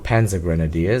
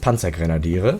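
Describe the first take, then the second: First: The term is pronounced the English way. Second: The term is pronounced the German way. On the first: "as most English people pronounce it" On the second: "in German it's Panzergrenadiere"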